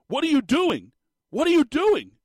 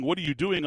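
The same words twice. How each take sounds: First: High, loud outraged yell; mock screaming. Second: Said in the usual way. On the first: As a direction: yell it like an exasperated commentator losing it on air. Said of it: "He's screaming at the players". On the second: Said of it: "He goes, "My apologies there".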